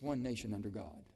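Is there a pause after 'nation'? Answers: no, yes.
no. There is no pause after 'nation'. The speaker calls it right. "don't pause. You can't pause. There's no break there"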